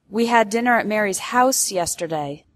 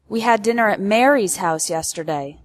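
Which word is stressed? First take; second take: house; Mary's. First: The word house carries the main stress. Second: The word Mary's carries the main stress. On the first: It corrects the place, not an apartment. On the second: It corrects the host, not Martha.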